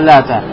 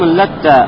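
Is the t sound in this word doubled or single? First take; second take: single; doubled. First: The t sound is single and short. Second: The t sound is doubled and held longer. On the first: "вместо «Лата»" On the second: "с удвоением буквы «Та»"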